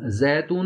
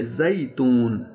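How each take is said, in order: First: زیتون as "zaetoon", brief vowel; wrong Urdu vowel. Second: زیتون very slow, "zai-toon"; correct Arabic ya. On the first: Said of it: "زیتون نہیں ہے". (زیتون اردو کے تلفظ میں) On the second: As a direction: draw out the "ai" glide in زیتون. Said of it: "یا کا تلفظ". (زیتون عربی تلفظ، یا کھینچ کر واضح) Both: Shown as a demonstration.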